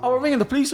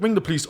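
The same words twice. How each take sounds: First: High-pitched imitated threat; mock threat. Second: Short defiant retort, little raised. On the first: Hotel staff threatening a guest over the phone, mock warning. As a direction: mimic an official's warning, pitched up. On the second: Retold or imitated. Guest answering reception's phone threat, defiant. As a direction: call their bluff.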